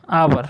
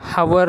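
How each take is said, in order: First: The word begins with a vowel sound. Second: The word begins with an h sound. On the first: The speaker calls it right. "तर आवर म्हणतो" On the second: The speaker calls it wrong. "आपण त्याला हवर नाही म्हणत"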